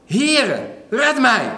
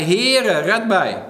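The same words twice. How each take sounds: First: High, loud cry for help. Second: A milder call for help, loud on Heere; retelling Peter's cry, less forceful. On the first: Peter calling out to Jesus as he sinks, loud high cry. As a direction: Peter sinking, shouting to the Lord for rescue. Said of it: "Toen riep hij". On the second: Preacher retelling Peter's cry to Jesus, a milder call. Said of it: "riep hij". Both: Retold or imitated.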